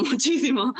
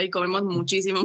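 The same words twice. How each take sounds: First: Laughs through the repeated muchísimo; laughing emphasis. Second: Said in the usual way. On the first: Real, not acted. Cook laughing to the interviewer about big appetites. Joking about locals eating a lot.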